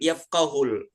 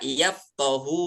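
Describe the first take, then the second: First: The word ends with an added l sound. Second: The word ends on a vowel, no l sound. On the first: The speaker calls it wrong. "bukan yafqahul ya" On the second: The speaker calls it right. "Yang benarnya adalah yafqahu qawli"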